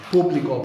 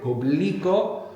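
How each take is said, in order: First: "Público" as POO-blee-ko; first-syllable stress. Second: "publico" slowly as poo-BLEE-ko; middle-syllable stress. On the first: Teacher proves the accent matters, "Público" stressed at the start. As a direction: hit PÚ in "Público", then let it fall. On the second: Teacher proves the accent matters, "publico" stressed in the middle. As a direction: draw out and hit BLI in "publico". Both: Shown as a demonstration. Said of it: "the accent's very important in Spanish".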